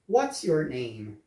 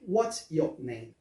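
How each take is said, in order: First: The R in your is pronounced, American style. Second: The R in your is dropped, British style. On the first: "Então a pergunta completa fica" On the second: "Ou no inglês britânico"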